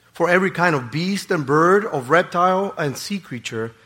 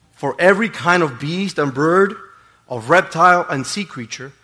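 The two takes are said the same way.

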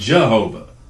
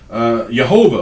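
First: The word begins with a J sound. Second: The word begins with a Y sound. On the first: This is the everyday English form. "or as we say it" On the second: This is the original Hebrew form. "it's from the original Hebrew word"

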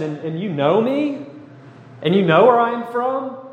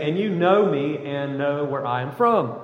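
First: It is said as a questioning rise. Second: It is said as a flat statement.

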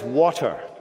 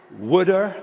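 First: The middle consonant is a crisp t sound. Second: The middle consonant is a soft d-like sound. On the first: The speaker calls it right. "but the word is water" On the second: The speaker calls it wrong.

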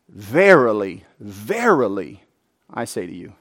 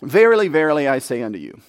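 First: It is read with strong stress on 'verily'. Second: It is read evenly, with no special stress on 'verily'.

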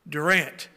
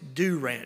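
First: The first vowel is short and quick. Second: The first vowel is long and drawn out. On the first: The speaker is not from the area. The speaker calls it wrong. "If they pronounce it Durant, they are not from around here" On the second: The speaker is a local. The speaker calls it right. "in Oklahoma, it's Durant, and there are three U's right there"

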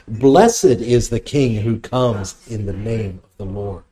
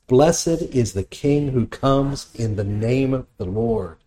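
First: It is said louder than before. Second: It is said at normal, softer volume.

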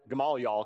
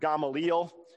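First: The name is said in a Southern pronunciation. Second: The name is said in its standard pronunciation. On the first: "if you're from the South, it's okay if you pronounce it Gamaliel" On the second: "his name is supposed to be pronounced Gamaliel"

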